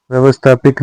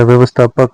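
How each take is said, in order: First: व्यवस्थापिक ending in pik; wrong -pik ending. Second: व्यवस्थापक ending in pak; correct -pak ending. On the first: Teacher showing learners the mistake, व्यवस्थापिक ending -pik. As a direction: say व्यवस्थापिक with i before k. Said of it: "व्यवस्थापक होता है". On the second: Teacher giving learners the correction, व्यवस्थापक ending -pak. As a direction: say व्यवस्थापक with short a before k. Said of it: "व्यवस्थापिक नहीं होता". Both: Shown as a demonstration.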